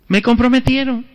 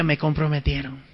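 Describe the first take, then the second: First: Said in the usual way. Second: "Me comprometieron" said softly to himself; soft dismayed "Me comprometieron"; quiet aside. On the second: Retold or imitated. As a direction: mutter "Me comprometieron" under the breath. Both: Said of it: "Bueno, dije".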